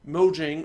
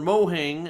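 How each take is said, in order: First: The middle consonant is a J sound. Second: The middle consonant is an H sound. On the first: This is how the speaker says it. "I say Mojang" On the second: This is how someone else kept saying it. "as they kept Phil Spencer kept saying"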